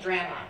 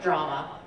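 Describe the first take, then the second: First: It is said with a Canadian vowel. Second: It is said with an American vowel. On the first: "And drama" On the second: "not drama"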